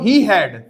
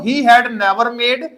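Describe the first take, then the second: First: There is a pause after 'he had'. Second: The phrase is read straight through without pausing. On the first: "या ऐसे पढ़ लो he had, अब बाद में never made" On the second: "ऐसे पढ़ लो he had never made"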